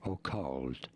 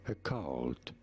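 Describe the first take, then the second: First: The first vowel is a clear O, British-style. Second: The first vowel is reduced, American-style.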